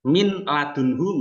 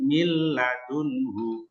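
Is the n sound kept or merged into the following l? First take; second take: kept; merged. First: The n is pronounced clearly before the l. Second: The n merges into the l without nasalization.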